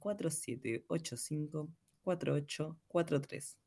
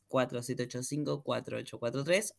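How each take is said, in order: First: The number is said slowly. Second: The number is said fast.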